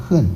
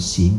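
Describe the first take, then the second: First: The character is pronounced heng. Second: The character is pronounced xing. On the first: It is used as a noun. "这地方我们就是跟它念恨，当名词用了" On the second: It is used as a verb, as in practicing. "一般我们讲行啊，它读音啊有行跟恨啊"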